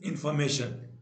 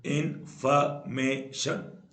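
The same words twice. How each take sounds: First: Said in the usual way. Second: information slowly split into four beats; syllable by syllable. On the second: Shown as a demonstration. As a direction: pause between each syllable of information. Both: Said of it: "जिसमें चार syllable होते हैं".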